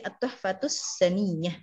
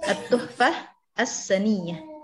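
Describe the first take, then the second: First: The words are run together with a linking 'tus'. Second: Each word is said separately with its ending 'h'. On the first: This is the reading when joined in speech. "karena dibaca langsung jadi At-Tuhfatus Saniyah" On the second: This follows the written form. "Penulisannya ya At-Tuhfah As-Saniyah"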